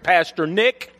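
The name ends with a hard K sound.

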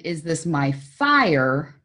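The stress is on "fire".

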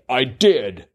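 It is said in a proud, confident tone. The speaker is pleased to have done it. "sort of proudly"

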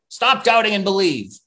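It is said in a harsh, angry tone.

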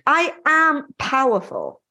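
It is said in a strong, confident voice.

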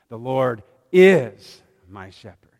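The stress is on "is".

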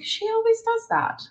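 The tone is relaxed and accepting. The speaker accepts the person as she is. The speaker calls it right. "Like, it's okay"

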